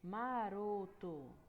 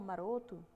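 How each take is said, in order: First: The word is said slowly, syllable by syllable. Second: The word is said at normal conversational speed. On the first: "quando a gente fala devagar" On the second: "se você falar nessa velocidade normal"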